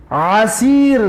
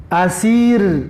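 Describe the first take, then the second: First: Throat-pressed ain in عسیر; pronouncing ain. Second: اسیر with a light glottal start; pronouncing alif. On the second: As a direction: open اسیر from the glottis, no squeeze. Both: Shown as a demonstration. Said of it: "تلفظ حرفای، حرف عین و الف".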